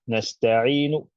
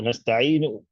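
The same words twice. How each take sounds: First: The final vowel fades out in a soft stop. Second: The final vowel is cut off abruptly. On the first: The speaker calls it right. "you're softly stopping on it" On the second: The speaker calls it wrong. "cutting it short"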